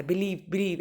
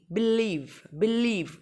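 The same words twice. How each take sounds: First: Said in the usual way. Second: believe with a long, falling, stressed लीव; stress on second syllable. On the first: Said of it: "ऐसे नहीं". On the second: Shown as a demonstration. Teacher showing the correct way, stressed second syllable. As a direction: lean into लीव and stretch it. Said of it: "ऐसे बोला जाता है".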